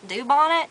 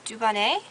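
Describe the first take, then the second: First: The name is said with an American accent. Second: The name is said with a French accent. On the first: The speaker calls it wrong. "I didn't pronounce it right" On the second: The speaker calls it right. "she sounded like she was French"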